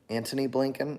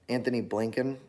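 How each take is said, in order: First: The first name is said with a plain 't' sound. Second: The first name is said with a 'th' sound. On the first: "Is his name Anthony or Antony?" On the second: "Is his name Anthony or Antony?"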